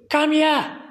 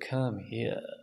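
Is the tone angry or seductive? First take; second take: angry; seductive. First: It is shouted angrily, like a scolding mother. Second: It is said softly in a seductive tone.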